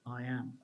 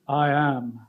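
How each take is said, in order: First: It is said plainly, without extra emphasis. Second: It is said with strong, heavy emphasis. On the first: The speaker calls it wrong. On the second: The speaker calls it right.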